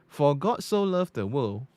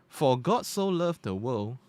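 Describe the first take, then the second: The two takes are said the same way.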